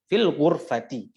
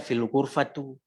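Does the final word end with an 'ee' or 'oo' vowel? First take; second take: ee; oo. First: The last word ends with an 'ee' vowel. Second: The last word ends with an 'oo' vowel. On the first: The speaker calls it right. "dibaca dengan kasroh" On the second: The speaker calls it wrong. "Jangan dibaca fil ghurfatu"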